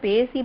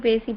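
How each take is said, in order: The two takes are said the same way.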